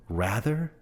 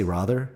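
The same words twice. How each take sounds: First: "rather" pronounced RA-ther with a short a; American rather. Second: "rather" with a long open ah, as in father; "rather" with a broad ah vowel and almost no r at the end; Australian rather. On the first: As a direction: say "rather" the American way, rhyming with "lather". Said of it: "You guys say". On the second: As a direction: say "rather" the Australian way, RAH-ther. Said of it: "Right, American. I, I say rather". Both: Shown as a demonstration.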